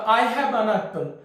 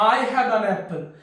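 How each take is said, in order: First: The word 'an' has a short reduced vowel. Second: The same.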